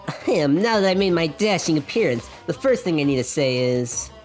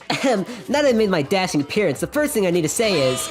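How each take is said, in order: First: It is read without the Luigi game-show voice. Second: It is read in a Luigi game-show voice.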